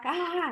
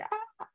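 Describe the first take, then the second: First: The sound is loud and dramatic. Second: The sound is soft and quiet.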